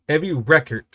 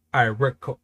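First: "record" with stress on the first syllable, REcord; noun record. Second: "record" with stress on the second syllable, reCORD; verb record. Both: Shown as a demonstration. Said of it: "Record and record is spelled the exact same way".

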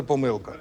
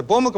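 First: "помилка" stressed on О, П-О-милка; stress on first syllable. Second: "помилка" stressed on И, пом-И-лка; stress on second syllable. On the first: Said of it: "можна казати". (наголос на «О»: пОмилка) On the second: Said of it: "Можна казати". (наголос на «И»: помИлка) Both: Shown as a demonstration.

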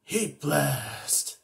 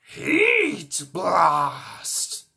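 First: Said in the usual way. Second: Loud, higher fiery shout; transformation cry. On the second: Acted. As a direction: call out the name triumphantly. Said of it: "some Ben Ten alien voices".

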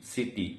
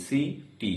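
First: Said in the usual way. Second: সিটি in two separate beats, a gap between syllables; split into syllables. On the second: Shown as a demonstration. Teacher showing learners the two syllables, সিটি said split in two. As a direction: break সিটি apart as সি, then টি. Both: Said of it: "আমরা দুইবারে উচ্চারণ করি".

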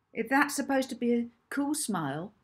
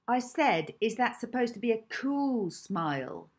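First: Sneering question, pitched up at the start; Hazel. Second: Insistent, high-pitched repeated taunt, falling at the end; Hazel. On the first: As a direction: sneer it as a mocking challenge. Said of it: "asked Hazel with a sneer". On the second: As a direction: press the jeering question, leaning on cool. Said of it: "repeated Hazel". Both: A narrator's reading.

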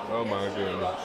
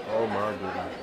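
Both takes have the same delivery.

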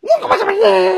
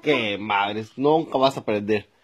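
First: Put-on very high, loud little-kid squeal; mocking child voice. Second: Low, resigned grumble; exasperated. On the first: Son throws father's complaint back, high mocking voice. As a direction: parrot it back in a piercing child's voice. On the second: Acted. Father giving up on teaching his son, exasperated. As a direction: give up on the pupil, voice dropping.

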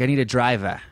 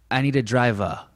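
First: Boston accent, "driver" ending in an open "ah". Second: New Bedford accent, "driver" ending in "uh". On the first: Comparing two towns' speech, Boston accent on "driver". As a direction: drop the R in "driver" to "ah", Boston style. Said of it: "Boston accent is more like". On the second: Comparing two towns' speech, New Bedford accent on "driver". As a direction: drop the R in "driver" to a rounder "uh", New Bedford style. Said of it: "New Bedford is like". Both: Shown as a demonstration.

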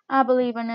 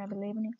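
First: I believe in shouted much louder; loud cheer. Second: Said in the usual way. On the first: Shown as a demonstration. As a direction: belt it out like a cheer to the whole lobby.

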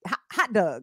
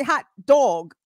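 First: "hot dog" slipping into "hot dug"; Baltimore accent. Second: Said in the usual way. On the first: Shown as a demonstration. Host failing to say it standard, Baltimore accent. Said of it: "comes out is in Baltimorean". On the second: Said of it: "I'm trying to say hot dog".

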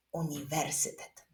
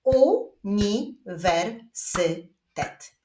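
First: Said in the usual way. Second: Very slow, five separate syllables; long word split with clear pauses. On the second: Shown as a demonstration. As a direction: clap out each syllable. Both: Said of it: "a my wyklaskujemy sylaby w wyrazie uniwersytet".

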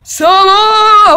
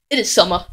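First: High, louder hammed-up "Summer!"; mock excited shout. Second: Said in the usual way. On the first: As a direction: belt out "Summer!" like a cheesy weatherman. Shouted weather announcement. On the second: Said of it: "that's enough summer".

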